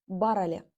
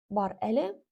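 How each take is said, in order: First: It is said quickly as one merged word. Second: It is said slowly as two separate words. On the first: "но произнеся быстро, получается барале" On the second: "это у нас пишется именно образом бар-эле"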